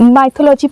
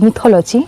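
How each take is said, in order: First: The first syllable has the vowel of 'my'. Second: The first syllable has the vowel of 'mih'. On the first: The speaker calls it wrong. "ভুল উচ্চারণ করে ফেলেছিলাম" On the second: The speaker calls it right. "Sorry মিথোলজি"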